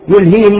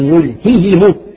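First: The h sound is swallowed and weak. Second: The h sound is clearly pronounced. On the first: The speaker calls it wrong. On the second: The speaker calls it right.

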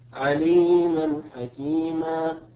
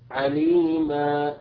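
First: The final vowel is short, running into the next word. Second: The final vowel is held long, then speech stops. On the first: The reader continues into the next word. "أما إذا وصلنا يسقط هذا المد نقول عليما حكيما" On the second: The reader stops on this word. "إذا أردنا أن نقف عليها نقول عليما، فهنا ثبت المد الأصلي بمقدار حركتين"

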